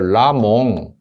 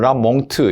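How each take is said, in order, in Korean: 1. 비음으로 끝나고 마지막 t는 나지 않아요. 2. 비음으로 끝나고 뒤에 t가 와요. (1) "라몽트를 묵음으로 해서 라몽 이렇게" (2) "두 개를 거의 중간 입자로 라몽트"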